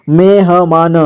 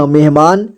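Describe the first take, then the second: First: मेहमान with ह given its own vowel; syllable by syllable. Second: Said in the usual way. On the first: Shown as a demonstration. Teacher breaking down मेहमान for learners, syllable by syllable. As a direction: sound out मेहमान piece by piece. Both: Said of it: "जोड़ जोड़ करके".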